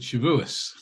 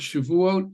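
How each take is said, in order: First: The word ends with an s sound. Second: The word ends with a t sound.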